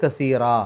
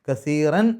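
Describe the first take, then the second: First: The word ends in a lengthened a vowel. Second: The word ends in a clearly heard n sound. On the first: The recitation stops after this word. "അവിടെ നിർത്തുകയാണെങ്കിൽ കസീറ എന്ന് പറഞ്ഞിട്ടാണ് നിർത്തുക" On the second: The recitation continues into the next word. "കസീറൻ എൻ എന്നുള്ള ശബ്ദം പുറത്തേക്ക് കേൾക്കണം അവിടെ ചേർത്തി ഓതുന്ന സമയത്ത്"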